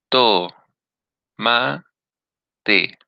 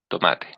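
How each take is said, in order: First: Each syllable is said separately with pauses between. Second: The syllables run together without any pauses. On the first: Every vowel sounds stressed. The speaker calls it wrong. "si yo hago pausas, todas adquieren intensidad" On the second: Only one vowel sounds stressed. The speaker calls it right. "Tengo que decir la palabra de corrido"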